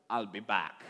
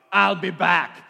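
First: Said in the usual way. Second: Put-on loud Austrian-accented Terminator line; Arnold Schwarzenegger. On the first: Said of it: "I don't think he said it in an Austrian accent". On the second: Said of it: "in an Austrian accent like Arnold Schwarzenegger".

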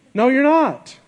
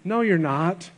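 First: Higher and louder, punching "No, you're not."; emphatic rebuttal. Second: Said in the usual way. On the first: Shown as a demonstration. Preacher rebutting the lyric to congregation, emphatic and louder. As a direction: hit "No, you're not." up high and strong.

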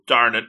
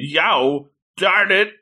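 First: Said in the usual way. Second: Higher-pitched retold exclamation; imitated outcry. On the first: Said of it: "And then he goes". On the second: Somebody down the hill cursing, imitated outcry. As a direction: mimic someone's frustrated cry, pitched up. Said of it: "somebody saying".

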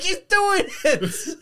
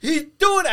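First: Slow, high, stretched out through laughter; laughing squeal. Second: Loud, high yell of delight; excited shout. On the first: Fan quoting the DiCaprio pointing meme, slow laughing squeal. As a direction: draw it out while cracking up. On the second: Dad watching Hopper raise the sword, loud excited yell. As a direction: shout it at the TV like a fan. Recalls the scene on TV. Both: Retold or imitated.

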